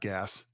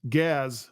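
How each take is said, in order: First: The name ends with an s sound. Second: The name ends with a z sound. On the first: The speaker calls it wrong. "not Gas" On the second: The speaker calls it right.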